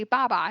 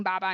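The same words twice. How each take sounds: First: Baba, said in place of bottle; baby word. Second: Baba, said in place of bottle; the toddler word baba, lightly said; baby word. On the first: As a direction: say baba the way a toddler does. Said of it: "they say baba instead of bottle". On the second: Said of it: "saying baba instead of bottle". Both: Shown as a demonstration.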